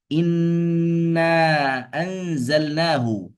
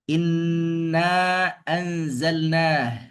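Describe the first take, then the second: First: The last word ends with a final vowel. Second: The last word ends on a bare consonant.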